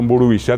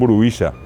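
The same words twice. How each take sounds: First: The stress falls on the last syllable. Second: The stress falls on the second-to-last syllable. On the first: "En vez de decirte" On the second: "le ponen el acento llano"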